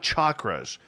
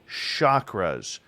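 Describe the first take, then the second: First: The first sound is a hard sound. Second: The first sound is a soft sound. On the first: The speaker calls it wrong. "not chakras" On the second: The speaker calls it right. "Soft C on that"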